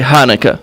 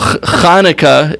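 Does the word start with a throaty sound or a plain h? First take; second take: plain h; throaty. First: It begins with a soft, plain h sound. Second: It begins with a throaty, scraping ch sound. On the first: This is how many people in the US say it. "can't pronounce the ch, so they just say Hanukkah" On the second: This is the Hebrew pronunciation. "is the Hebrew way to say it"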